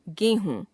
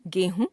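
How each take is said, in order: First: Said in the usual way. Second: गेहूं with a short final u, "gehun"; wrong pronunciation. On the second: Shown as a demonstration. Teacher showing a u-vowel error, गेहूं ending on short u. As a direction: cut the last vowel of गेहूं short, rising. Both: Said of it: "अशुद्ध".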